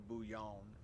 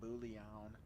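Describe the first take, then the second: First: It is said the French way, with light L sounds. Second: It is said the anglicized English way. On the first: "the French way is probably with the light L's" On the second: "in English we fucking torch it and call it bouillon"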